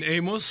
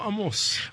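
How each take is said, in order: First: The name is said with an English pronunciation. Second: The name is said with a Hebrew pronunciation. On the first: The speaker calls it wrong. "Until now, you've been Amos" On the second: The speaker calls it right. "From now on, you're Amos"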